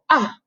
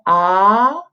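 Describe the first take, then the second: First: The pitch falls sharply from high to low. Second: The pitch rises from middle to high. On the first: "The fourth tone you go ah, go all the way down" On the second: "second tone ah, go up"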